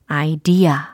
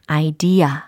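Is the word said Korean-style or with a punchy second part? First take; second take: punchy second part; punchy second part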